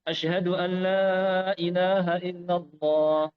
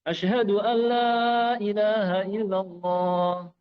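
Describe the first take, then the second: No difference in how they are said.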